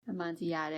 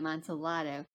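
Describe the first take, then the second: First: The double L is sounded like a Y. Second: The double L is sounded like an L. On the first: "the Spanish pronunciation would be the uh the Y" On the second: "the Italian would be"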